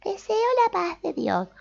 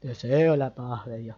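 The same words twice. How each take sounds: First: "Deseo la paz de Dios" sung out high; high-pitched. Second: "Deseo la paz de Dios" dropped low; low-pitched. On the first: Teacher showing the phrase said in a high tone. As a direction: chirp it up high and sweet. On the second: Teacher showing the phrase said in a low tone. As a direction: say it down in a deep voice. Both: Shown as a demonstration. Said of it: "con diferentes tonos agudos y graves".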